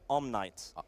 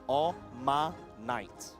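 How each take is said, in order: First: No vowel is heard between the M and N. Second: A vowel is heard between the M and N.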